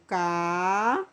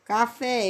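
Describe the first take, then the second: First: "café" as drawn-out "caaa... FÉÉÉ"; stress on final syllable. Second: Said in the usual way. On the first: Shown as a demonstration. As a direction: stretch both halves of "café" apart, leaning hard on "fé". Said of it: "café vai mais força". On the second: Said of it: "pronuncia com mais força".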